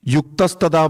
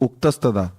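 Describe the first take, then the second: First: The first word starts with a 'y' sound. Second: The first word starts with a bare vowel. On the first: The speaker calls it wrong. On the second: The speaker calls it right.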